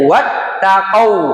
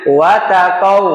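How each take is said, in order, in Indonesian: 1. Suara berhenti sebentar pada t ganda. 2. Bunyi t lewat tanpa henti tertahan. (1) "Berhenti saja" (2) "Jangan watakau"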